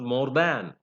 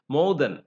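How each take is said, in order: First: The word 'than' is said in its full form. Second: The word 'than' is said in its reduced form. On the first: The speaker calls it wrong. "It's not more than" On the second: The speaker calls it right. "in connected speech we use weak form"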